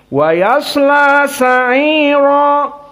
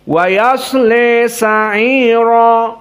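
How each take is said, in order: First: The final vowel is a clear open 'a'. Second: The final vowel is bent strongly toward 'e'. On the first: "dibaca dengan fathah" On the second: "namun al-imalah al-kubra"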